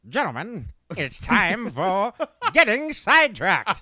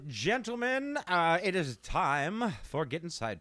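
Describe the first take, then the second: First: It is said in an old-timey radio voice. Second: It is said in his ordinary announcing voice.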